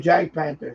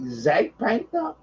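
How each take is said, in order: First: The name begins with a J sound. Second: The name begins with a Z sound. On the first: This is reading it as English. "I call it the Jack Panther" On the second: This is how German speakers say it. "I think they pronounce the J as uh, is it a Z?"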